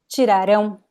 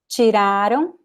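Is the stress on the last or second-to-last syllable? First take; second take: last; second-to-last. First: The stress falls on the last syllable. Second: The stress falls on the second-to-last syllable. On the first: The action will happen in the future. "The difference is the stress. It's ão" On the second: The action happened in the past. "está no passado"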